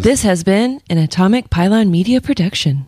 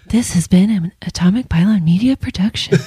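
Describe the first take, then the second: First: It is said in a normal voice. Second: It is said in a soft, airy NPR voice.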